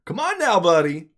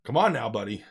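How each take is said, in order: First: Mock scolding a friend to stand down; coaxing come on now. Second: Said in the usual way. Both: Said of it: "gives him that look like".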